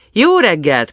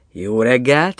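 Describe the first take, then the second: First: High, loud call that falls away; cheery called-out hello; hearty greeting. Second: Restrained reply with a rising end; mild, questioning hello back; answering greeting. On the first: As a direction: hail the gatekeeper brightly from the coach. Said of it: "köszöntötték a kapuőrét". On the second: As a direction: return the greeting, lifting the last word. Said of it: "felelt az". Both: A narrator's reading.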